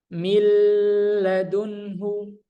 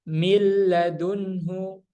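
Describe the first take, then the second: First: The nasal sound is held for two counts. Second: The nasal sound goes straight into the l. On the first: The speaker calls it wrong. "Kalau ditahan akan bunyinya seperti ini" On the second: The speaker calls it right. "Jadi harus milladunhu. ... langsung ke lamnya tanpa dengung, tanpa ditahan"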